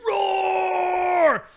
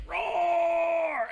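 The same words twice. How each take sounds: First: Much louder, higher straining roar; huge mock roar. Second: Loud high hammed-up roar; mock roar. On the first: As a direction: go all out, a bigger roar than the first. Left hand squeeze, bigger roar. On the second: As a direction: roar like a beast straining the grip tester. Squeezing grip meter, retold roar.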